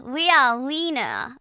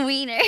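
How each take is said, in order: First: "wiener" said German-style, ending in an open "ah"; loud German "wiener", no r at the end; German pronunciation. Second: "Wiener" with an English "er" ending, laughing; loud, giggled English "Wiener" with an r; English pronunciation. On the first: Shown as a demonstration. Practising the German tongue twister, "wiener" ending in "ah". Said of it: "I can do a German tongue twister". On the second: Real, not acted. Breaking up over the German word, "Wiener" ending in English "er".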